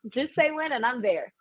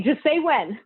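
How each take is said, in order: First: Laughing. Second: Said in the usual way. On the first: Retold or imitated.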